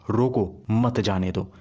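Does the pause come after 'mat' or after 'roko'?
after roko. There is a pause after 'roko'. Stop them; do not let them go. "मतलब उसे रोकना है, जाने नहीं देना।"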